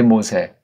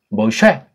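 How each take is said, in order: First: The name has a plain 's' sound. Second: The name has an 'sh' sound, stressed at the end. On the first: This is a Japanese-style rendering of the name. The speaker calls it wrong. "모세라고 일본 말투로 해버렸어요" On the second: This is the original form of the name. The speaker calls it right. "뒤에 액센트 있는 거로 사람들이 치는 모쉐"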